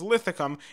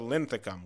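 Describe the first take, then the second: First: No n sound comes before the th. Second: An n sound comes before the th. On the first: The speaker calls it wrong. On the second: The speaker calls it right.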